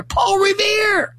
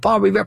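First: High, drawn-out mock-heroic shout; mock acclaim. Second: Said in the usual way. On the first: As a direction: cry out the hero's name, high and stretched. Mock acclaim of the poem's hero.

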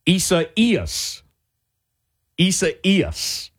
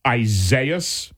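First: Isaias said ee-sah-EE-ahs, stress on the second I; Isaias, accent on the third syllable EE; correct pronunciation. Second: Isaias said as eye-ZAY-us; wrong pronunciation. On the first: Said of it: "Here's how to say that name". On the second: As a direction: Isaias with a long I, stress on ZAY. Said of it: "some say it". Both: Shown as a demonstration.

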